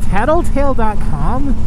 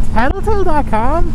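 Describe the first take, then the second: First: Said in the usual way. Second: Higher, louder stunned question; incredulous reread. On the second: Real, not acted. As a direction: say it again as if you can't believe it. Rereading the sign in shock.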